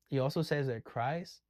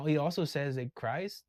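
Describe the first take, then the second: No difference in how they are said.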